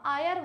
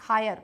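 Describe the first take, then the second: First: The word starts with a vowel, no h sound. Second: The word starts with a clear h sound. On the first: The speaker calls it right. "आयर का मतलब होता है उत्तराधिकारी" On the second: The speaker calls it wrong. "वो लगा देगा ए और हो जाएगा उसका गलत"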